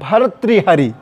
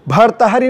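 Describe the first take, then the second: First: It is said with 'ri' after 't'. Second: It is said with no 'ri' after 't'. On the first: The speaker calls it right. "गलती ना होने पाए" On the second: The speaker calls it wrong. "भर्तहरि नहीं है"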